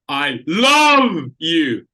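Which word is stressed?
love. The word 'love' carries the stress, said louder. "If I want to key the middle word, now we can go with just volume"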